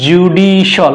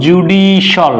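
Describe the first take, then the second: First: The ending is said as 'shal'. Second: The ending is said as 'shal'.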